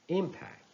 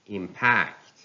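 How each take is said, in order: First: "impact" as IM-pact, high start; stress on first syllable. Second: "impact" as im-PACT; stress on second syllable. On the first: Teacher reading a noun, "impact" stressed on IM. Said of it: "stress on the first syllable". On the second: Teacher reading a verb, "impact" stressed on PACT. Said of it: "stress falls on the second syllable". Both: Shown as a demonstration.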